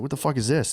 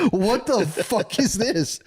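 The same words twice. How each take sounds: First: Said in the usual way. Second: High, slow, stunned what-the-fuck; shocked disbelief. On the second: Retold or imitated. Cortez horrified at the temple, stunned and slow.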